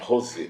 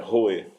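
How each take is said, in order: First: An s sound is heard in the middle. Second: No s sound is heard in the middle. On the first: This is the Aramaic pronunciation. "na pronúncia no aramaico é Rosé" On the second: This is the Hebrew pronunciation. "na pronúncia do hebraico é Roé"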